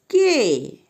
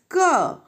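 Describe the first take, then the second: First: The letter is said as its name. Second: The letter is said as its sound. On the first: "Alphabetical sound of K is K" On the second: "But phonetic sound is not K, it is K"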